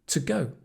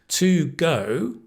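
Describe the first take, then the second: First: The word 'to' has a reduced weak vowel. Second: The word 'to' has a full vowel.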